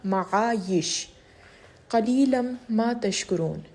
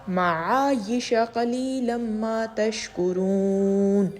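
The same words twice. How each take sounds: First: There is a stop after the word ma'ayish. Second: Ma'ayish runs straight on into the next word. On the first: "मैंने वक्फ़ किया है माआयिश पे" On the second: "मिलाकर पढ़ना चाहें तो आप इसको ऐसे पढ़ सकते हैं"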